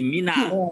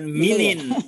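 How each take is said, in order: First: The word ends with an added 'a' sound. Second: The word ends with an added 'in' sound. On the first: The speaker calls it right. "tapi mina" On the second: The speaker calls it wrong. "bukan minin"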